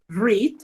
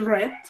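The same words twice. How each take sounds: First: It is said as the present tense form. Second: It is said as the past participle form. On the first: The action happens now or habitually. "read en presente" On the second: It is the participle used in perfect tenses. "read en participio"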